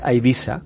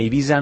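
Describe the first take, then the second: First: The middle s is voiceless, a hissing s. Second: The middle s is voiced, like a z. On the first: The speaker calls it right. "hauria de ser una S sorda" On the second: The speaker calls it wrong. "la tendència a pronunciar-ho sonor"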